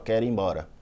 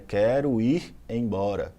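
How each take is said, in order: First: The three words run together into one word. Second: The three words are said as separate words. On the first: "ela juntou tudo numa só" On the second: "nós temos aí três"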